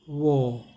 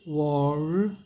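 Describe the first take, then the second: First: The final r sound is silent. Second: The final r sound is clearly pronounced. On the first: "British में वॉ, वॉ, देखिए आर silent" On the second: "American में क्या है, वॉर, वॉर, रॉ है"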